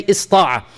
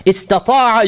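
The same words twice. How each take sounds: First: Ista'a with the ta cut out; shortened form. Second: Istata'a with all four syllables, ta clearly voiced; full form. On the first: Teacher giving students the easier short form, lightly. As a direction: drop the ta and say ista'a briefly. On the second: Teacher contrasting the full verb for students, carefully. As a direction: lift and sound out Istata'a in full. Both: Shown as a demonstration. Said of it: "you can say ista'a".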